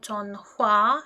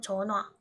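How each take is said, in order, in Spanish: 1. La h después de la n se pronuncia claramente. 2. La h después de la n se pierde. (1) "en vez de pronunciar esto como 전화" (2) "cuando hay N antes de J, la J pierde sonido"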